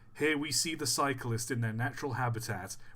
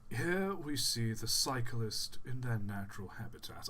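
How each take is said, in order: First: It is read in a plain voice. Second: It is read in a BBC documentary narrator voice.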